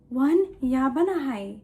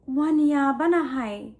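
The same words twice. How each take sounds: The two takes are said the same way.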